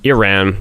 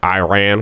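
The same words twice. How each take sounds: First: It is said in a non-Americanized way. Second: It is said in an Americanized way. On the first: The speaker calls it right. "Trying to get to pronounce it correctly" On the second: The speaker calls it wrong. "the like incorrect Americanized way"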